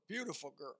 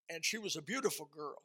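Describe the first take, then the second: First: Soft echo. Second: Said in the usual way. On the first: Acted. Preacher echoing his praise of the wife, softer. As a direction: repeat it softer, half to yourself. Echoes praise of wife's beauty.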